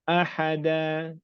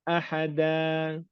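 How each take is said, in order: No difference in how they are said.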